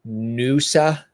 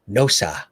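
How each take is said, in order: First: The first vowel sounds like 'new'. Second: The first vowel sounds like 'no'.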